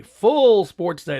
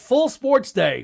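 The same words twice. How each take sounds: First: "Full" stretched very slow and louder; drawn-out loud emphasis. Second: "Full" stretched slow and higher; drawn-out emphasis. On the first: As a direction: lean into "Full sports day", slow and louder. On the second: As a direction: savor "Full sports day", very slow and higher. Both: Real, not acted.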